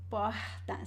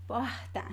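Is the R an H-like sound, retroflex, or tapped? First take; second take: H-like; H-like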